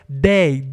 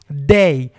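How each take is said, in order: First: The first sound is a hard d. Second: The first sound is a hard d.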